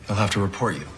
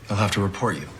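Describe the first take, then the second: The two takes are said the same way.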